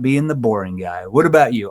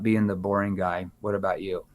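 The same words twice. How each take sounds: First: The voice sounds light and playful. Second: The voice sounds flat and dull. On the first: The speaker is friendly and lowers the listener's guard. The speaker calls it right. "Now I'm saying in a playful tone" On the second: The speaker comes across as genuinely boring. The speaker calls it wrong. "if I said it like this"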